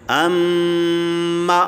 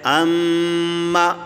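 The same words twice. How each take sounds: First: The final vowel is nasal, through the nose. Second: The final vowel is oral, not through the nose. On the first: The speaker calls it wrong. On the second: The speaker calls it right.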